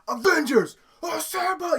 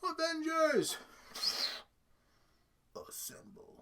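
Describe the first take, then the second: First: The phrase is shouted loudly with force. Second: The phrase is said softly without force. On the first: It rallies people about to risk their lives. The speaker calls it right. "He should be screaming that" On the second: It sounds like a weak call to fight. The speaker calls it wrong. "that's just the most wussy way to, like, initiate fighting"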